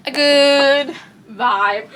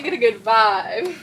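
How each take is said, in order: First: Loud yawn stretching out GOOD. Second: Said in the usual way. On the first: Real, not acted. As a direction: yawn right through the words, drawn out. Yawn interrupts, then apologizes.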